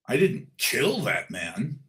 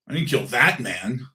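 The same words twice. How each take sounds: First: The word "kill" is stressed. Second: The word "that" is stressed. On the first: The speaker hurt the man but did not kill him. "I didn't kill him, but I might have beaten him" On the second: The speaker killed someone else, not this man. "I might have killed somebody, but not that one"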